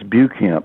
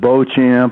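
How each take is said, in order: First: The name is said like 'Bucamp'. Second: The name is said like 'Beauchamp'. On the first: This is how the family pronounced it. "I always heard it as Bucamp" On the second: This is how outsiders pronounced it. "they pronounce it Beauchamp"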